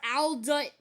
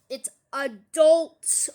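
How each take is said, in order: First: ADULT said wrongly as "al-dut"; misspelling read out. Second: ADULT slow and very loud, a-DULT; corrected word. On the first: Acted. Vlogger reading a misspelt comment, "adult" as "al-dut". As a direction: say "adult" with the L moved forward, "al-dut". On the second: Shown as a demonstration. Vlogger correcting a commenter's spelling, "adult" slow and loud. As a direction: punch the second syllable of "adult". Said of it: "Correct your spelling".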